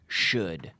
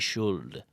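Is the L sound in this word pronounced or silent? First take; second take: silent; pronounced. First: The L sound is silent. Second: The L sound is pronounced. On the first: The speaker calls it right. "there's an L there, but it's silent" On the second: The speaker calls it wrong. "We don't say should"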